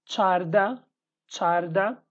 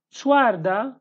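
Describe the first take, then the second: First: Charda with no w after ch; Hawleri pronunciation. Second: Chwarda with a w after ch; Slemani pronunciation. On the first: Teacher reads the Hawleri number, Charda without the w. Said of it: "after the comma is Hawleri dialect". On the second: Teacher reads the Slemani number, w glide in Chwarda. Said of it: "is in Slemani dialect". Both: Shown as a demonstration.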